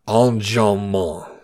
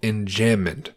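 First: It is said with a nasal French pronunciation. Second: It is said with a plain English pronunciation.

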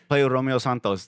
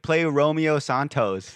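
First: The name has a Spanish Mexican pronunciation. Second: The name has an anglicized white-American pronunciation.

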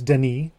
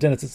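First: The name is pronounced the French way. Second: The name is pronounced the English way. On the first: The speaker calls it right. "It's Denis" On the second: The speaker calls it wrong. "It's not Dennis"

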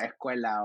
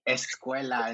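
First: The S sound is weakened or dropped. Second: The S sound is clearly and fully pronounced. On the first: This is the speaker's natural way of talking. "I hate pronouncing my S's" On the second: This is a neutral way of talking for other Spanish speakers. "I had to pronounce every single S"

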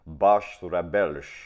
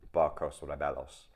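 First: It is pronounced the Portuguese way. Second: It is pronounced the Spanish way. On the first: The speaker calls it right. "It's something like barcos rebelos" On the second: The speaker calls it wrong. "It's not, because that would be Spanish"

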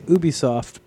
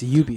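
First: The start does not sound like 'ubiquitous'. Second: The start sounds like the start of 'ubiquitous'. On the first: The speaker calls it wrong. "Some people say Ubisoft" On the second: The speaker calls it right. "it's short for ubiquitous software. So it is Ubisoft"

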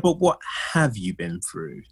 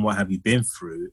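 First: The word 'have' is strongly emphasized. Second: The word 'have' is not emphasized.

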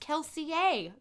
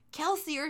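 First: The name has a French-style pronunciation. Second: The name has an ordinary English pronunciation.

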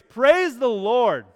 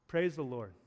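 First: It is said boldly, with force. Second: It is said timidly, without force.

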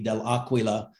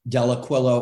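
First: The name is said with Italian pronunciation. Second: The name is said with American pronunciation. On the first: "or in Italian, it would be" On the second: "the American pronunciation is"

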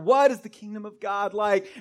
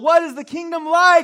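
First: It is said a little louder. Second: It is yelled at full volume.

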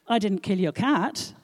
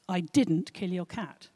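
First: The stress falls on 'cat'. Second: The stress falls on 'didn't'.

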